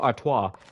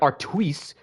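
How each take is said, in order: First: Artois is said in a French-like way. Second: Artois is said in an English-like way. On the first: The speaker calls it right. "I'm giving it my best educated guess. I'm just saying it's a Stella Artois" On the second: The speaker calls it wrong. "I know it's not like Artois"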